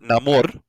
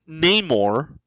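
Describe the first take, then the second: First: The name sounds like Spanish 'amor'. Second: The name does not sound like 'amor'.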